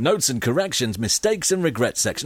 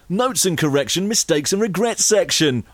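First: It is said in his normal speaking voice. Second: It is said in a local radio announcer voice.

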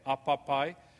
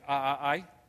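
First: The word has full p consonants between vowels. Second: The word has glottal stops instead of consonants. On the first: This is the usual form of the word. "instead of saying alligator head" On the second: A child who has not yet mastered the consonants says it. "very often they will say a-a-ai. Children especially do that"

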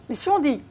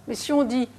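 No difference in how they are said.

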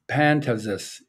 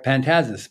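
First: The stress is on the first syllable. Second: The stress is on the second syllable. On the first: The speaker calls it right. "so it's the accent's on the first one" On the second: The speaker calls it wrong. "the default is to put the accent on the second syllable"

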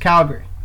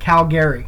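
First: The middle vowel is dropped. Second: The middle vowel is fully pronounced. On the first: Someone who grew up in the city said it. The speaker calls it right. "they kind of just get rid of the A, so it's just Calgary" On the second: Someone from outside the city said it. The speaker calls it wrong. "there's so many people who pronounce it Calgary"

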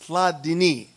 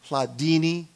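First: The name is said not rhyming with fettuccine. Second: The name is said to rhyme with fettuccine. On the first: The speaker calls it right. "It's Hladini" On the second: The speaker calls it wrong. "Please don't say Hladini. If it says fettuccine, capellini, it's not pronounced that way"

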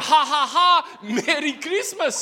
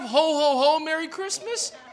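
First: It is said in a thick Korean accent. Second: It is said in a plain accent.

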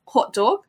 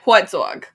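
First: It is said in a slightly British accent. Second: It is said in a New York accent.

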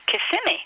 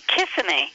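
First: The stress is on the middle syllable. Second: The stress is on the first syllable. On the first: The speaker calls it right. "This is supposed to be on the middle syllable, and it's actually pronounced Kissimmee" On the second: The speaker calls it wrong. "the tendency is for people to call it Kissimmee"

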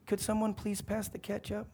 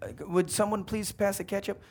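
First: It is said quietly, in a small voice. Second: It is said more loudly.

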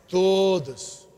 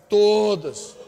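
The two takes are said the same way.

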